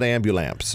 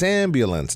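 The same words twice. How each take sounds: First: "ambulance" as AM-byoo-lamps; child's mispronunciation. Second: "ambulance" with high stress on AM and a clear -lence; correct pronunciation. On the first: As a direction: end "ambulance" wrongly in MPS. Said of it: "not ambulance". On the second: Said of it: "It's ambulance". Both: Shown as a demonstration.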